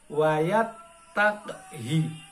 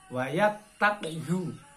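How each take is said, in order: First: The final vowel is an 'i' sound. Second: The final vowel is a 'u' sound. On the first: The speaker calls it right. "ini hi-nya ini dibaca kasroh" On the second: The speaker calls it wrong. "Kadangkala banyak yang membaca wayat takhu"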